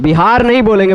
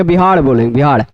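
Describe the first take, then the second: First: बिहार said with a clear tapped r; teacher says बिहार correctly, with a proper r; Bihar with r. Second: बिहार said as "बिहाड़", r turned into a flapped ड़; teacher imitates बिहार pronounced as बिहाड़; Bihar with a flapped r. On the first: शिक्षक सही उच्चारण दिखाते हुए: बिहार में साफ़ र. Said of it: "ऐसा बोल रहा हूँ". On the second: शिक्षक बिहारी उच्चारण की नकल करते हुए: बिहाड़. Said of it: "र को ड़ बोलते हैं, ऐसा बोल रहा हूँ". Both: Shown as a demonstration.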